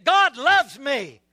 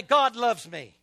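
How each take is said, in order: First: Louder, slower, with conviction; emphatic, drawn-out declaration; really mean it. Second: Said in the usual way. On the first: Shown as a demonstration. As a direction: say it like you truly believe it. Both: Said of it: "Now say it like you really mean it".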